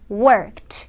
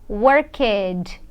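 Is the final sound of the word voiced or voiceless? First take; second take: voiceless; voiced. First: The ending is a voiceless t sound. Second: The ending is a voiced sound, like d. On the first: The speaker calls it right. "É som de T" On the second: The speaker calls it wrong. "vibrou, eu fiz vibrar e eu não posso fazer vibrar"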